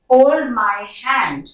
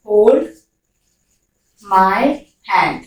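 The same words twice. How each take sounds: First: Slow and drawn out, every word stretched; slow dictation; very slow model sentence. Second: Each word separately, the pitch sinking to hand; one word at a time; word by word, falling. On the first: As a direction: stretch each word for the learner. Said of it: "model sentence slowly". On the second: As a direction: set each word apart with pauses. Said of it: "word-by-word repeat". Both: Shown as a demonstration.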